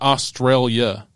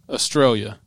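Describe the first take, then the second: First: The word ends with an 'ailia' sound. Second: The word ends with a plain 'ia' sound. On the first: The speaker calls it wrong. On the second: The speaker calls it right.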